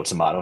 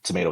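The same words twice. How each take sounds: First: TOMATO said as tuh-MAH-toh; TOMATO with MAH as its stressed syllable; alternative pronunciation. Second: TOMATO said as tuh-MAY-toh; long AY in the middle of TOMATO; TOMATO rhyming with potato; first pronunciation. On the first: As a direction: open AH in the middle of TOMATO. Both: Shown as a demonstration. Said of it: "however you wanna say it".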